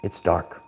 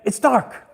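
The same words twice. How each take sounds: First: Much lower, softer ominous take; ominous warning. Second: Spooky warning. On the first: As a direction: drop the voice into a spooky hush. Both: Retold or imitated. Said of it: "It's a world famous quote".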